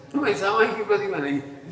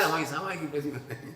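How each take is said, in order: First: Said in the usual way. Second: Mocking excuse. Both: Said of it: "ऐसे कह रहे हैं".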